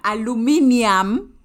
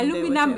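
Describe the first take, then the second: First: It is said the Kenyan way, aluminium. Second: It is said the American way, aluminum. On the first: "Aluminium is Kenyan" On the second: "Aluminum is American"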